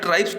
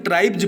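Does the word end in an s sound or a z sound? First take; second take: s; z. First: The word ends with an s sound. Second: The word ends with a z sound. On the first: The speaker calls it wrong. "ट्राइब्स तो गलत हो जाएगा ये उच्चारण" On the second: The speaker calls it right. "इसको ट्राइब्स पढ़ा जाता है"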